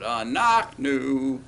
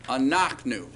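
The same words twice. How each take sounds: First: Very slow Anachnu, clear stress on NACH, away from the ending; slowly showing the class where Anachnu is stressed; slow stressed demo. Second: Anachnu with the accent on the middle syllable, not the last; stress off the ending. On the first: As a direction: stretch Anachnu out, leaning on the middle syllable. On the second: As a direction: say Anachnu as a-NACH-nu, stress away from the end. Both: Shown as a demonstration. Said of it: "Note that accent away from the ending".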